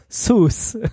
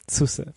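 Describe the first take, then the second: First: The name ends in an s, no final vowel. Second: The name ends with a pronounced final vowel. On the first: The speaker calls it wrong. "heißt es trotzdem natürlich Sus für Suse" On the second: The speaker calls it right. "Nee, es heißt Suse"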